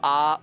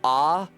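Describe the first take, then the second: First: The vowel stays steady throughout. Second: The vowel glides upward partway through. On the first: "we don't have ah" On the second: "You can hear it goes up, ah. The mouth changes position over the course of it"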